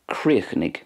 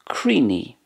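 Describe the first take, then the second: First: The final sound is clearly pronounced. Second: It is shortened and ends in an 'ee' vowel. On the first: "I'm pronouncing it the way it's pronounced in Munster" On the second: "And in Ulster, Creeny"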